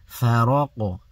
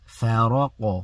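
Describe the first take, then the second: Both takes have the same delivery.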